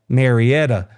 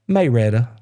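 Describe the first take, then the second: First: The name is said in a standard accent. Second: The name is said in a Southern accent.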